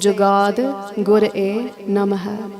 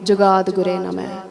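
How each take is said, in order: First: The syllables are separate with a full ending. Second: The syllables run together with a shortened ending. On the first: The speaker calls it right. "Everything is very intentional" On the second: The speaker calls it wrong. "Maharaj didn't write it like that"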